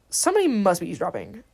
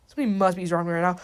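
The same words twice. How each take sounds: First: Unhurried, deliberate delivery; spaced-out, wary announcement; measured suspicion. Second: Fast, run-together delivery; hurried, wary announcement; quick suspicion. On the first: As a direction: spell out the suspicion. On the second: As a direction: rattle off the suspicion. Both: Retold or imitated. Line retaken at another pace.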